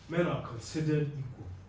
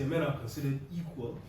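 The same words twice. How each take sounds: First: The stress is on considered. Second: The stress is on equal.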